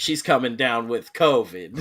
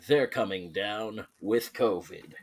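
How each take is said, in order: First: It is said in a normal speaking voice. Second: It is said in a dramatic movie-trailer voice.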